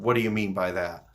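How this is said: It is said in a combative tone.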